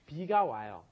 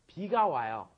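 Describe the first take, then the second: First: The first word begins with a B sound. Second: The first word begins with a B sound.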